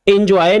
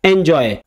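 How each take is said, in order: First: "एंजॉय" said as in-joy, with short i; mispronounced first vowel. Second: "एंजॉय" said as en-joy, with open e; correct E sound. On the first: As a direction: start "एंजॉय" with "in" rather than "en". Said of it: "एंजॉय नहीं". ("एंजॉय" को गलत ढंग से इन्जॉय बोलें) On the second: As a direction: start "एंजॉय" with a clear "en". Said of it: "इसकी pronunciation एंजॉय की जाती है". ("एंजॉय" को सही ढंग से एन-जॉय बोलें) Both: Shown as a demonstration.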